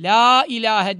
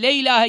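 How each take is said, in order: First: The first vowel is long, with an open mouth. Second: The first vowel is short and closed, like 'le'. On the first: The speaker calls it right. "la ağız açılarak ve uzatılarak" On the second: The speaker calls it wrong. "Le gibi yapılmayacak. Bazıları le ilahe gibi yapıyorlar"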